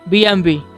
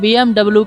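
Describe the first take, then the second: First: The last letter is said as 'vee'. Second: The last letter is said as 'double-u'. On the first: The speaker calls it right. "लेकिन हकीकत में इसका नाम बीएमवी है" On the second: The speaker calls it wrong. "Normally लोग इसका नाम बीएमडब्ल्यू के नाम से लेते हैं"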